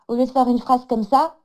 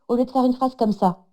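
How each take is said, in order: First: The phrase is left open, pitch staying up. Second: The phrase is closed, pitch falling at end.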